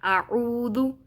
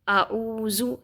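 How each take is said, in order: First: The middle consonant is pronounced softly, without hissing. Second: The middle consonant is hissed like a whistle. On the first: The speaker calls it right. "इसको पढ़ना है आऊदु" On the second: The speaker calls it wrong. "इसको सीटी की तरह पढ़ देते हैं, जैसे आऊज़ु ऐसे नहीं पढ़ना"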